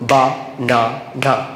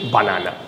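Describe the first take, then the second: First: Each syllable is said separately with pauses. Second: The syllables run together without any pauses. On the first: "ভেঙে practice করি" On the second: "একসাথে করলে"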